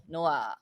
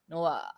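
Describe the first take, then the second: First: The final particle is a bare ah vowel. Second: The same.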